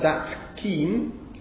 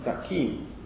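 First: The final consonant keeps its own place. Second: The final consonant takes the next consonant's place. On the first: "is not that keen" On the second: "but that keen"

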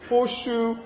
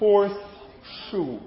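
First: The word 'horse' ends in an sh sound. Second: The word 'horse' ends in an s sound. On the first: "you may say horseshoe" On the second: "rather than horse shoe"

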